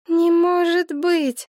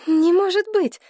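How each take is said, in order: First: High, slow monotone denial; dazed, droning disbelief held high; on one note. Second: High, agitated denial; shocked high-pitched protest; disbelieving. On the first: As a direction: repeat it like a wound-up toy, stuck on one pitch. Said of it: "повторяла Елена на одной ноте, как заведённая". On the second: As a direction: refuse to believe it, pitch up high. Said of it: "повторяла Елена Павловна, мотая головой". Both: A narrator's reading.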